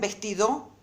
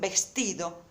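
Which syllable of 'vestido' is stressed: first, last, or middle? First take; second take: last; middle. First: The stress is on the last syllable. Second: The stress is on the middle syllable. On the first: The speaker calls it wrong. "Esta tampoco es la sílaba tónica" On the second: The speaker calls it right. "esta es la sílaba tónica"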